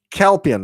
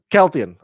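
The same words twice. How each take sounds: First: Kelpian with a clear p, a bit higher; corrected name. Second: Keltian with a t, the slip; wrong name. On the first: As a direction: fix it to Kelpian, stressing the p. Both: Shown as a demonstration. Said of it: "not Keltian".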